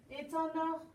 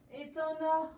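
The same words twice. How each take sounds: The two takes are said the same way.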